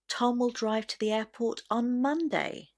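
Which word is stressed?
Monday. The word Monday carries the main stress. It happens on no other day. "the stress will naturally go on the word Monday"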